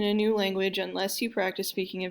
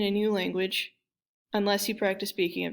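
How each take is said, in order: First: There is no pause before "unless". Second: There is a pause before "unless". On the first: The speaker calls it right. "Number one sounds more natural. You don't need a comma here" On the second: The speaker calls it wrong. "We can also do the pause thing"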